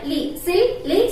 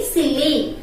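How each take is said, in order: First: LI, SILLY slowly broken into separate beats; teacher stretching silly into its two syllables. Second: Said in the usual way. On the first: Shown as a demonstration. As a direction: slowly sound out li, then sil-ly. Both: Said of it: "See how to pronounce this?".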